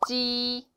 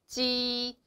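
No difference in how they are said.

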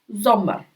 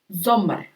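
Both takes have the same delivery.

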